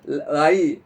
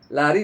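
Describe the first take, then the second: First: The r sound is dropped from the word. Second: The r sound is clearly pronounced in the word.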